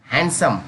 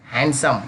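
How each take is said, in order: Both takes have the same delivery.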